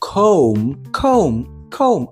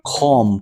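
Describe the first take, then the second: First: The vowel is long, like in home. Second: The vowel is short, like in bomb. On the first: The speaker calls it right. "але ні, це comb, типу як home" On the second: The speaker calls it wrong. "а це слово це bomb, правильно, значить і це буде com"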